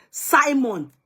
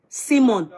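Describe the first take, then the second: First: "Simon" firmly, first syllable like "sigh"; SY-mon pronunciation. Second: "Simon" with first syllable like "see"; SEE-mon pronunciation. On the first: Host insists on own way, "Simon" as SY-mon. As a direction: say "Simon" as SY-mon, pitched higher. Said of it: "I say and I repeat". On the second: Host quotes the viewer's way, "Simon" as SEE-mon. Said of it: "why must I pronounce it your way". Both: Shown as a demonstration.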